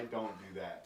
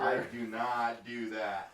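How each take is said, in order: First: It is said at normal, quieter volume. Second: It is said louder, with more force.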